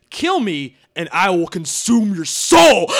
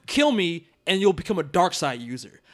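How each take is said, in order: First: Menacing villain. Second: Said in the usual way. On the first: Shown as a demonstration. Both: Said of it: "That is not the same thing as".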